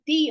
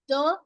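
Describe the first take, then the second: First: It is said in the form used before vowels. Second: It is said in the form used before consonants. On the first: "it's the oyster because the word starts with a vowel sound" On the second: "I will say the because the word starting after the starts with a consonant sound"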